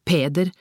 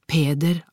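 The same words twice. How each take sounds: The two takes are said the same way.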